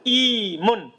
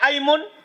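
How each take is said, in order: First: The word begins with an i vowel. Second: The word begins with an a vowel. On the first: "boleh kasroh" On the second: "boleh fathah"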